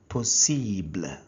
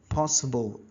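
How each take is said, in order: First: The word is said with French sounds. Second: The word is said with English sounds. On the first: "in French it is pronounced as" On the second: "in English"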